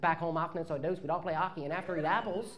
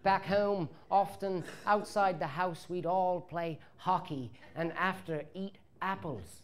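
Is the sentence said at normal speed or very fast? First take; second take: very fast; normal. First: The words are said quickly, run together as one. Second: The words are said slowly and clearly apart. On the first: "we also say it about three times as fast as everybody else would say it. So it comes out as one word" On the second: "That sounds much better, don't it?"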